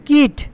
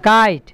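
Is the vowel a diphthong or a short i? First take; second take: short i; diphthong. First: The vowel is a short i sound. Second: The vowel is a gliding ai sound. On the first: The speaker calls it wrong. "না" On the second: The speaker calls it right. "আইটা আয়ের মতো উচ্চারণ হচ্ছে"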